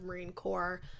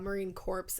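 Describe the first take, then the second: First: Corps is said with silent final p and s. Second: Corps is said with audible final p and s. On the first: The speaker calls it right. "instead of Marine Corps" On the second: The speaker calls it wrong. "I'm really sorry that I said uh, Marine Corps"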